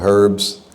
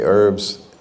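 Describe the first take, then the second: First: It is said in a British accent. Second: It is said in an American accent. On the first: "The British say herbs" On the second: "We say herbs"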